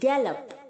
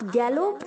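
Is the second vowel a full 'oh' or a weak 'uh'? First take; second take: weak uh; full oh. First: The second syllable has a weak 'uh' vowel. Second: The second syllable has a full 'oh' vowel. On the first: The speaker calls it right. "गैलोप्ड नहीं, गैलप" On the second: The speaker calls it wrong. "आप गैलोप नहीं बोलेंगे"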